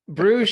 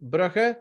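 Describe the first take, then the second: First: The name is given its English pronunciation. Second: The name is given its Dutch pronunciation. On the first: "how you pronounce it properly in English" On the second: "In Dutch, you would say Brugge"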